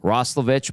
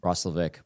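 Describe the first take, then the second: First: The name ends with an itch sound. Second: The name ends with an ick sound. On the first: The speaker calls it wrong. "it's not an itch at the end" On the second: The speaker calls it right. "it's an ick. There we go"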